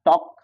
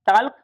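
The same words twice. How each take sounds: First: टॉक with no l at all; silent l. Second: टॉल्क with the l said aloud; wrong sounded l. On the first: Teacher giving the correct silent-l टॉक. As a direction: say टॉक plainly, no l sound. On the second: Teacher showing the wrong टॉल्क before the right one. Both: Shown as a demonstration. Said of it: "एल silent होगा".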